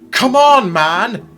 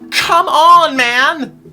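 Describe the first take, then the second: First: It is said in a plain reading voice. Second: It is said in Sprout's whiny voice.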